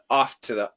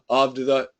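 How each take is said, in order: First: The first word ends with an F sound. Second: The first word ends with a V sound. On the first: "keep the, that F. So it's going to be an off to the" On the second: "of with a V sound? ... of to the, definitely possible"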